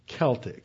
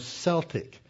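First: The word begins with a hard K sound. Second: The word begins with a hissing S sound. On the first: The speaker calls it right. "It was always Celtic. So that's the correct pronunciation" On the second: The speaker calls it wrong. "you pronounce it with a sibilant C"

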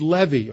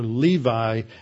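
First: The name has a non-English, original-style pronunciation. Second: The name has an anglicized English pronunciation.

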